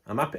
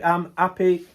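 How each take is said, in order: First: Said in the usual way. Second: Louder, brighter repeat; emphatic happy. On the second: Real, not acted. Vlogger insisting he is happy, louder. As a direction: say it again, meaning it more.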